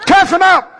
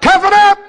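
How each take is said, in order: First: Barking gym coach. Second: Sharper, louder drill sergeant bark; barking gym coach. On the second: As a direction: snap it like a drill instructor. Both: Pretend. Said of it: "I'm your drill instructor".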